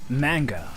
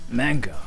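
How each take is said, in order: No difference in how they are said.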